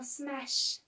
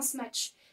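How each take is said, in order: First: The word ends with a soft 'sh' sound. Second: The word ends with a 'tch' sound. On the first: The speaker calls it right. "c'est un smash" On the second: The speaker calls it wrong. "Ce n'est pas un smash"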